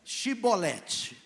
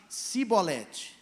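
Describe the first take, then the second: First: Chibolete said very slowly with a clear sh; correct shibboleth. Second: Cibolete said slowly with a plain s, no sh; wrong pronunciation. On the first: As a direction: draw out Chibolete, sh at the start. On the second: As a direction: stretch Cibolete with a hissed s. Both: Shown as a demonstration. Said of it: "Agora você fala assim".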